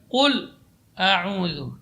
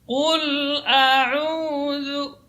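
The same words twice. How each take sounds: First: The l sound is cut off abruptly. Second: The l sound partly flows on smoothly. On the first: The speaker calls it wrong. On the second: The speaker calls it right.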